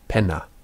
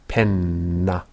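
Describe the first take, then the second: First: The n is a single short sound. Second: The n is doubled across two syllables. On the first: The speaker calls it wrong. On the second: The speaker calls it right. "pronounced their double consonants as two distinct sounds"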